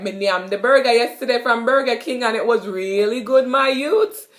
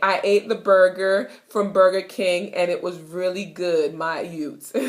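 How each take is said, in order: First: Lively Jamaican patois, "my youth" rising. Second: Said in the usual way. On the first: Shown as a demonstration. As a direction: brag in patois to a friend. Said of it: "you could be like".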